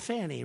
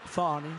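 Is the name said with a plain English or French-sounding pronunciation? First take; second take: English; French. First: The name is said in a plain English way. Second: The name is said with a French-sounding flourish. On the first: This is how the spelling would normally be read. The speaker calls it right. "it's called Fanny, right?" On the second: The name was given a fancy foreign touch. The speaker calls it wrong. "she gave it a little Frenchy stuff"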